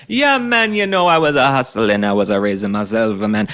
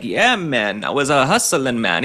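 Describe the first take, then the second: First: Hammed-up Jamaican accent. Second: A hint of a mock Jamaican lilt, barely shifted; light put-on Jamaican accent. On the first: Commentator mocks governor's hustling story in an exaggerated Jamaican accent. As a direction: ham up a cartoon Jamaican "yeah, man". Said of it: "He's, like, kinda this Jamaican guy". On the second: Commentator mocks governor's hustling story in a faint Jamaican accent. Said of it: "putting on a little bit of a new accent like Kamala Harris".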